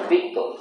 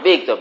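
First: The name is said in a soft, tender voice. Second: The name is said in a plain, neutral voice.

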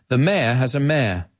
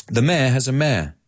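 Both takes have the same delivery.

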